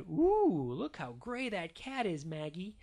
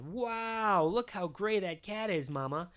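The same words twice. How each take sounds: First: Cooing Mama. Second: Lightly voiced dad with a high "Wow"; a touch of fatherly wonder, pitched up; amazed Daddy. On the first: Mama showing baby Maggie the cat, lightly cooing. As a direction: coo a little, pitched up for a baby. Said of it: "And Mama said". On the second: Daddy admiring the cat to Mama, lightly voiced amazement. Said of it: "And Daddy said". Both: A narrator's reading.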